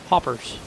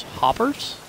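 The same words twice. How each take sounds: First: Flat statement. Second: Hoppers? rising high, puzzled; puzzled question. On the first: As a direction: state Hoppers. flatly, falling. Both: Shown as a demonstration.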